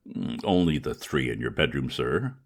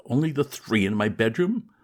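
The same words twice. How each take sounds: First: Low, unruffled butler voice, matter of fact; calm valet reply. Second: Higher, louder disbelieving repeat rising on bedroom; incredulous echo. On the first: Valet answering his master about the cats, low and unruffled. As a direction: report it as if nothing were odd. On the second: Young master repeating his valet's words, higher, in disbelief. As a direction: echo the servant's words in horror. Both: Acted.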